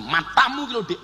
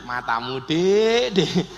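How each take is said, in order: First: Raised-pitch mock scolding; demonstrated cross retort; angry. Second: Lower, teasing tone; playful coaxing tease; joking. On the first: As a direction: snap it as an offended insult. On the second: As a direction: say the insult as affectionate banter. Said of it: "Tapi lak guyon". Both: Shown as a demonstration.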